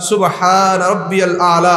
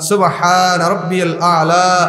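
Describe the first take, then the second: No difference in how they are said.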